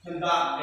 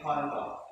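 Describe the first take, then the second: First: "conduct" as con-DUCT, second syllable stressed; contrasting stress. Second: "conduct" as CON-duct, first syllable stressed; weight on CON in "conduct"; contrasting stress. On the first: Teacher contrasts the two words, "conduct" stressed on DUCT. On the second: Teacher contrasts the two words, "conduct" stressed on CON. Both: Shown as a demonstration. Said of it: "the difference between".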